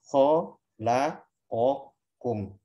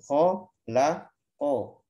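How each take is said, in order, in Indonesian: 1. Setiap vokal diberi satu harakat penuh. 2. Satu vokal di tengah dipotong kurang dari satu harakat. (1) "kalau satu harokat semuanya" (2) "Slow motionnya begini. ... Ko itu masih belum satu"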